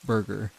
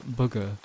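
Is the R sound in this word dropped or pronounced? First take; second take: pronounced; dropped. First: The R sounds are clearly pronounced. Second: The R sounds are dropped, giving booga. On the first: "the word burger" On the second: "I always said uh, booga"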